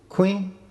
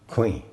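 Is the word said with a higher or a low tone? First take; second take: higher; low. First: The word is said on a higher tone. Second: The word is said on a low tone. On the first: The word means knife. "That tone change altered a word in the sentence" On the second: The word means chicken. "Queen is low tone"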